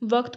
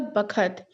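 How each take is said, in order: First: It is said with v and k sounds. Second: It is said with b and kh sounds. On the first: The speaker calls it right. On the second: The speaker calls it wrong.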